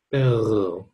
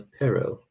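First: "perro" with a long trilled r; rolled R. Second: "perro" with one quick tap, like pero; single tapped R. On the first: Teacher contrasts two words, "perro" with an overlong rolled R. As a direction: roll the r of "perro" long and slow. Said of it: "I say it too long". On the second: Teacher contrasts two words, "perro" with a short tapped R. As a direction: tap the r of "perro" once, no trill. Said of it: "This one's". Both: Shown as a demonstration.

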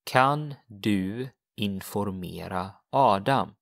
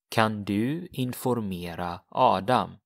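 First: "Kan du informera Adam?" slowly, syllable by syllable; slow model. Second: Said in the usual way. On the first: Shown as a demonstration. Teacher modelling the Swedish question slowly. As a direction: take it slow for the learner.

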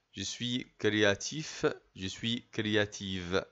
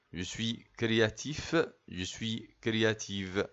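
Both takes have the same delivery.

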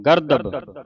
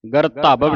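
First: ਗਰਦਬ with a plain voiced d and short vowels; soft D. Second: ਗਰਧਬ as "gar-taa-bab", middle hardened toward T; wrong tonal take. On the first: Teacher corrects the children's reading, voiced D in the middle. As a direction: say ਗਰਦਬ as "gar-dab". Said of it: "ਜਦੋਂ ਆਪਾਂ ਗਰਦਬ ਬੋਲਾਂਗੇ". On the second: Teacher warns against the misreading, hardened middle consonant. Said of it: "ਨਹੀਂ ਬੋਲਣਾ". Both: Shown as a demonstration.

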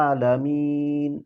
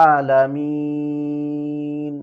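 First: আলামিন with the long a held one count; one-alif stop. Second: আলামিন with the long a held two counts; two-alif stop. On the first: Teacher demonstrating one-alif stop, one beat. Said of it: "এক আলিফ". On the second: Teacher demonstrating two-alif stop, held longer. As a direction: stretch the vowel in আলামিন twice as long. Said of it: "দুই আলিফ". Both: Shown as a demonstration.

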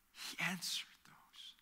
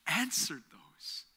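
First: A soft, slow whisper; whispered echo. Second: Said in the usual way. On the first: Real, not acted. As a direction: whisper it as a quiet truth.

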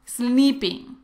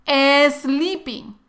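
First: Sleeping empezando directo con la s, sin e delante; pronunciación correcta. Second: Sleeping dicho "esleeping", con una e delante de la s; añade una e antes de sleeping, como hispanohablante; pronunciación incorrecta. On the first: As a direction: di sleeping arrancando con s pura. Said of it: "la pronunciación correcta es". (sleeping sin la e inicial) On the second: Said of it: "pero muchos decimos sleeping, pero no". (sleeping con e inicial, el error típico) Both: Shown as a demonstration.

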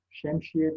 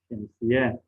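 First: "Şemsiye" with a second sh, şemşiye; sh replacing s inside "Şemsiye"; misspelt form. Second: Said in the usual way. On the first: Shown as a demonstration. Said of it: "yanlış yazılmış olan sözcüklerin". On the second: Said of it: "doğrularını yazalım".

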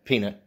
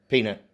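The two takes are said the same way.

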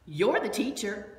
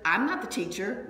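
First: You're hit with the weight, slower, quoting a snippy message; stress on YOU'RE. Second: "not" punched with a rising tune, mock defiant; stress on NOT. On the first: Retold or imitated. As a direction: lean on "You're", then let "the teacher" fall. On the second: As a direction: hit "not" hard and lift it up. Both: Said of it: "I'm putting the emphasis on the syllables".

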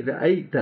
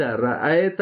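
First: رأیت as "ra-ai-ta"; clear Arabic ya. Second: رأیت with flattened "ae"; wrong Urdu vowel. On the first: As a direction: sound the ya glide in رأیت. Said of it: "رأیت نہیں، رأیت". (رأیت یا کو واضح کر کے) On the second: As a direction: say رأیت slowly, no ya glide. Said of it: "رأیت نہیں". (رأیت یا کو مجہول کر کے) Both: Shown as a demonstration.

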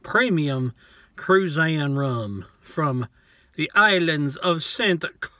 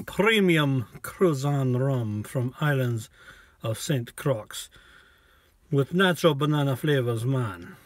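First: Said in the usual way. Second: Slow, laid-back mock Jamaican accent; hammed-up Jamaican accent, unhurried. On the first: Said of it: "reads the label again in accent". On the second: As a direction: drawl the label out like a Jamaican rum ad. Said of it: "but I like doing the accent".

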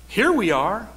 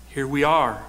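First: Mocking rise on here; sarcastic. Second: Said in the usual way. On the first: Shown as a demonstration. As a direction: say it with a sarcastic lift. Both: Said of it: "More sarcasm".

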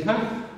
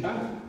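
First: An inviting Come, raised and rising; stress on Come. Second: Said in the usual way. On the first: Shown as a demonstration. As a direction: give Come a calling, rising push.

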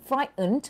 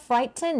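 First: "frightened" with no T in the middle; T dropped. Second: "frighten" with the T fully released; T sounded. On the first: Teacher asks students what they have heard, middle T dropped in "frightened". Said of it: "ไม่มีตัว T". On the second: Teacher asks students what they have heard, T sounded in "frighten". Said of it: "ที่มีตัว T". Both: Shown as a demonstration.

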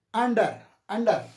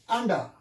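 First: "under" with the final r sounded. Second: "Under" with the final r dropped; silent R. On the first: Teacher drilling the linking R, r pronounced in "under". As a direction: end "under, under" on an audible r. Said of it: "As it is a linking R". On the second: Teacher showing students the silent R, "Under" without r. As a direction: end "Under" on an open "ah", no r. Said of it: "this is silent". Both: Shown as a demonstration.

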